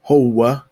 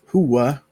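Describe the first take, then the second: First: It is said with an o vowel, ending in a. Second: It is said with an u vowel, ending in a. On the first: This is how it is said in Egypt. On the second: This is the standard form.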